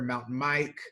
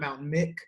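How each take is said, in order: First: The second word has a long 'i' vowel. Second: The second word has a short 'i' vowel. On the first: The speaker calls it right. "it is pronounced like microphone" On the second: The speaker calls it wrong. "It is not Mountain Mick"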